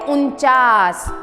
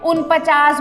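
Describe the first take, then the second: First: No extra 'pa' syllable is inserted mid-word. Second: An extra 'pa' syllable is inserted mid-word. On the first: The speaker calls it right. "ये क्या है, उनचास" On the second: The speaker calls it wrong. "उनपचास बोल देते हैं, जो कि गलत है।"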